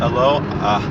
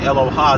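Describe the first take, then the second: First: The stress falls on the middle syllable. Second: The stress falls on the final syllable. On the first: The speaker calls it right. "but the the accent is on the low" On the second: The speaker calls it wrong. "a lot of people say Eloha. That doesn't mean anything"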